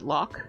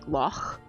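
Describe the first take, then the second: First: The word ends with a hard K sound. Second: The word ends with a throaty guttural sound. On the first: The speaker calls it wrong. "usually English people pronounce it loch with like a K on the end" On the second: The speaker calls it right. "more of like a guttural C H sound"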